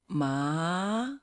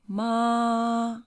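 First: The pitch rises from mid to high. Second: The pitch stays high and level. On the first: "second one going up" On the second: "the first one"

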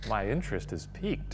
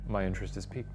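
First: It is said with more animation. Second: It is said flat and deadpan.

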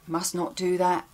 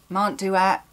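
First: Must and not are said as separate words. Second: Must and not are squeezed into one syllable.

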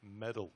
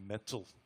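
First: The middle consonant is a soft D sound. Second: The middle consonant is a clear T sound. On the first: "in America, we soften them to a D and we say things like metal" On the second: "but it's actually metal"

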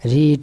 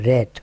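First: The vowel is long, like 'reed'. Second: The vowel is short, like 'red'. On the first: It is the present form. "রিড মানে পড়া" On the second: It is the past form. "এর past form এর উচ্চারণ কিন্তু রেড"

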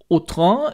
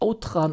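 First: The name is pronounced with French sounds. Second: The name is pronounced with German sounds. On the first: "ich denke, man spricht das französisch aus" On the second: "jetzt spreche ich es deutsch aus"

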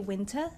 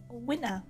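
First: The t sound in the middle is clearly pronounced. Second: The t sound in the middle is dropped. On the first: "The British usually say winter" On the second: "my accent is from Southeast London. And so I would have said winter"

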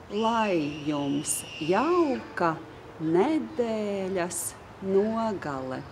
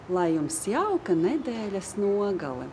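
First: The sentence is said slowly and deliberately. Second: The sentence is said quickly at natural speed. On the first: "I'll say it again" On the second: "now I'll say it faster, like I would normally say it in Latvian"

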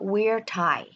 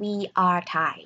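First: We are is shortened into one syllable. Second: We are is said as two full words. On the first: The speaker calls it right. "เราก็จะพูดว่า" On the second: The speaker calls it wrong. "เราก็จะไม่พูดว่า"

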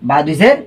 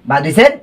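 No difference in how they are said.

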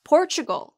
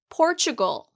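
Both takes have the same delivery.

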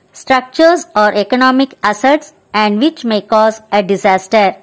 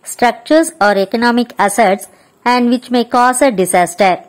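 No difference in how they are said.

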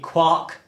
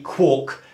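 First: The vowel sounds like the one in bark. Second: The vowel sounds like the one in cork. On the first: "to rhyme with bark" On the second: "to rhyme with cork"

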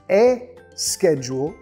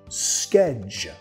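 First: An extra vowel sound comes before the s. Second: The word starts directly with the s sound. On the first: The speaker calls it wrong. "no quieres decir E schedule" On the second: The speaker calls it right. "Empieza directamente con la S más K"

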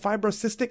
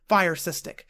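First: The first part is said as 'fibro'. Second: The first part is said as 'fire'.

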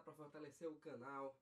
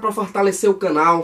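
First: The voice is very quiet, barely audible. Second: The voice is at normal, clearly audible volume. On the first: "Foi eu mesmo que botei o volume baixo" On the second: "Agora sim! Vocês estão me escutando"

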